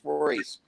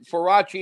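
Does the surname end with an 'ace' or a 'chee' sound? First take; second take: ace; chee. First: The name ends with an 'ace' sound. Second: The name ends with a 'chee' sound. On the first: This is how locals who knew him said the name. "That was just always how we said his name on Staten Island" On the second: This is how the family pronounces the name. "Farachi is the correct way to say it"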